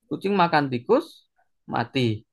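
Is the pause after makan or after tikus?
after tikus. The pause comes after tikus.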